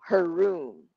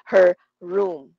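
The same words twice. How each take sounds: First: The two words run together smoothly. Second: The two words are said apart. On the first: The speaker calls it right. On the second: The speaker calls it wrong. "Hindi siya her room. Awkward pa nga yun eh"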